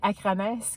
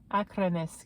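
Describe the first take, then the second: First: The name is read with a French pronunciation. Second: The name is said with an Icelandic pronunciation. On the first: The speaker calls it wrong. "je disais Acronis quand je le lisais" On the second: The speaker calls it right. "dit à l'islandaise"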